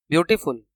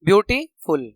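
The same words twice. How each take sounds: First: Said in the usual way. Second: beautiful split as beauty, pause, फुल; broken into syllables. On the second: Shown as a demonstration. Teacher demonstrating syllables, beautiful broken before फुल. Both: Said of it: "यहाँ पे दो syllable आ रहे हैं".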